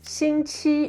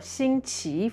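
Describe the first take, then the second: First: It is said with a mainland Mandarin pronunciation. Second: It is said with a Taiwanese Mandarin pronunciation.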